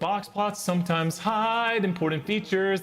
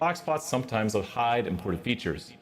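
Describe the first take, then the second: First: The voice sounds plain, with no echo. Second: The voice sounds echoing and drawn out.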